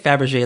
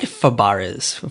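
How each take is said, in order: First: It sounds like the name of the egg. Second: It does not sound like the egg's name. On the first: The speaker calls it wrong. "you're saying like Fabergé, like a Fabergé egg" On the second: The speaker calls it right. "I think it's like Fabares"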